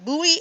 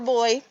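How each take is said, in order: First: It is said unlike the word boy. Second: It is said just like the word boy. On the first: "it's actually pronounced two ways" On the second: "sometimes it just sounds like B O Y"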